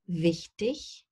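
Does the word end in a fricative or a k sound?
fricative. The word ends in a soft hissing fricative. This is the standard form.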